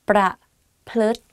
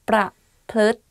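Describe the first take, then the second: No difference in how they are said.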